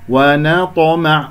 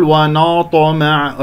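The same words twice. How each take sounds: First: ونطمع slowly, thin na before the heavy ta; light noon. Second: ونطمع with na darkened toward no; heavy noon. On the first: Teacher models the correct word, light noon. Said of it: "ولا أقول ونطمع أفخم النون". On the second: Teacher shows what not to say, heavy noon. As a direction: wrongly thicken the n of ونطمع. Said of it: "أفخم النون المرققة". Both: Shown as a demonstration.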